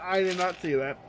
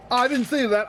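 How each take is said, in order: First: Softer, word by word: "I did not see that"; quieter denial. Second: Quick raised denial; higher denial. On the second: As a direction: say it higher like you're pretending you missed it. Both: Real, not acted.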